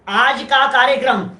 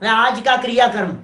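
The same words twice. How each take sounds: First: Said in the usual way. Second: क्रियाक्रम read out in place of कार्यक्रम; misprint reading. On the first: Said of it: "थोड़ी सी सावधानी नहीं हो तो कार्यक्रम की जगह क्रियाक्रम छप". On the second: Shown as a demonstration. Teacher shows a proofreading slip, reading क्रियाक्रम. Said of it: "कार्यक्रम की जगह क्रियाक्रम छप जाता है".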